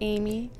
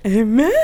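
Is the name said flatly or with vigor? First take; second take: flatly; vigor. First: It is said flatly and plainly. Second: It is said with lively vigor.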